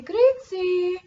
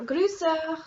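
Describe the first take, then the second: First: Grüezi with Swiss German sounds, raised; greeting word Grüezi said the Zurich way. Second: Grüße in Bernese German sounds; Bernese greeting. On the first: Vlogger showing Swiss greetings, Zurich German pronunciation. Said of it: "is Zurich German". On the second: Vlogger contrasting Swiss dialect greetings, Bernese pronunciation. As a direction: say Grüße the Bern way. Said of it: "if you're from Bern". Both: Shown as a demonstration.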